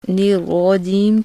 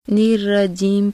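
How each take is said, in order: First: The r sound is heavy and full. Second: The r sound is thin and light. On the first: The speaker calls it right. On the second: The speaker calls it wrong.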